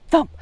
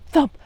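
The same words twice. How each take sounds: The two takes are said the same way.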